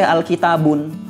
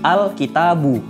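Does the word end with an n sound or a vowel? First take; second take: n sound; vowel. First: The word ends with an added n sound. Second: The word ends on a plain vowel. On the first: The speaker calls it wrong. "nggak boleh al-kitabun" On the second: The speaker calls it right. "tetapi al-kitabu"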